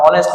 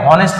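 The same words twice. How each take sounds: First: অনেস্ট starting straight on the vowel, h silent; right pronunciation. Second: হনেস্ট with a sounded h at the start; wrong pronunciation. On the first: Teacher showing pupils the right way, h left silent. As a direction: say অনেস্ট with no h at all. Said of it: "আমরা অনেস্ট man বলি". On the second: Teacher showing pupils the wrong way, with a sounded h. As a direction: say হনেস্ট breathing out a clear h. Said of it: "আমরা কিন্তু এটাকে হনেস্ট man বলি না". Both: Shown as a demonstration.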